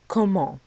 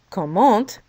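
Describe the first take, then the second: First: The word ends without any T sound. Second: The word ends with an audible T sound. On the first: The speaker calls it right. "We leave off the T when we pronounce the word" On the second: The speaker calls it wrong. "We don't say comment even though there is a T at the end of the word"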